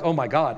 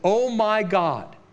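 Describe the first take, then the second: First: It is said as a casual, offhand exclamation. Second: It is said as a desperate cry to God.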